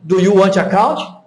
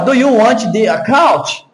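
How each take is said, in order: First: The words are linked together and said faster. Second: The words are said separately and more slowly. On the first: "é mais rápido, porque essa conexão que eles fazem deixa as palavras mais rápidas" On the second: "Olha a diferença"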